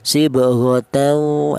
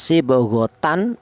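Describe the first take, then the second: First: The n merges straight into the following w. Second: The n is pronounced clearly before the w. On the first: The speaker calls it right. "tanwin ini langsung menyatu ke huruf wawu" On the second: The speaker calls it wrong. "idhar atau jelas"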